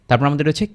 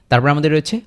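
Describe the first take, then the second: The two takes are said the same way.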